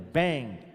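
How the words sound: It is said with an American English accent. The speaker calls it right. "o americano é bang, denota uma explosão"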